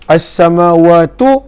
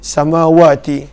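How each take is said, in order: First: The word ends with an 'u' vowel. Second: The word ends with an 'i' vowel. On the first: The speaker calls it right. "baris depan" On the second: The speaker calls it wrong. "bukannya baris bawah untuk ti"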